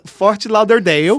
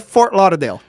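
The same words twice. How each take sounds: First: The name is said with a Brazilian Portuguese accent. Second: The name is said with an American English accent. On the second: "Mas em inglês é"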